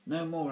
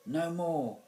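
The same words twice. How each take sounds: First: High, loud exclamation; exclaiming. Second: High, loud prompt. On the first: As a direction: pounce on the prompted words. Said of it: "Alvis exclaimed". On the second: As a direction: call out the forgotten words to the actor. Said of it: "Mister Lace prompted". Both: A narrator's reading.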